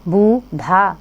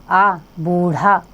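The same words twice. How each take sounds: First: Said in the usual way. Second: आ, बूढ़ा said slowly, the vowel split off first; slow phonics on बूढ़ा; sounded out slowly. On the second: Shown as a demonstration. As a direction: pull the आ out of बूढ़ा, then say the word slowly.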